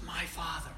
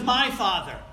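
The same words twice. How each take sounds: First: Soft, intimate "My Father"; hushed emphasis. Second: Loud, punched "My Father"; preacher driving home MY Father; emphatic contrast. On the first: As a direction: say "My Father" quietly, letting it sink in. Repeats the key phrase softly. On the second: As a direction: proclaim the words "My Father" forcefully. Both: Real, not acted.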